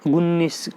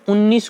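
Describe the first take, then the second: First: The word begins with an added g sound. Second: The word begins directly with a vowel sound. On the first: The speaker calls it wrong. "अपन गुन्नीस बोलते हैं" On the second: The speaker calls it right. "हम उन्नीस को गुन्नीस बोलते हैं"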